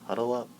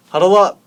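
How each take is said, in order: First: Said in the usual way. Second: Sudden high, very loud yell; bellowed order to gather round; shouted call. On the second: Acted. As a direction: shout to rally the class. Teacher calls class to gather, repeating louder.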